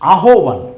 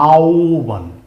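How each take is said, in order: First: The middle of the word has an h sound. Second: The middle of the word has a w sound. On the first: The speaker calls it wrong. "মনে হচ্ছে এর উচ্চারণ হবে আহ্বান ... কিন্তু actually না" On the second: The speaker calls it right. "এর উচ্চারণ হবে আওবান"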